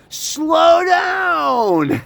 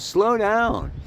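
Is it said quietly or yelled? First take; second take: yelled; quietly. First: It is yelled loudly. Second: It is said at a normal, quiet volume.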